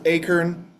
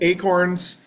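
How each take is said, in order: First: It is said in a Southern US accent. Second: It is said in a general American accent.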